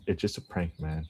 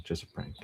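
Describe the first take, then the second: First: Said in the usual way. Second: Breathy whispered repeat; whispering. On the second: Real, not acted. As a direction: drop to a whisper. Whispered repeat of prank line.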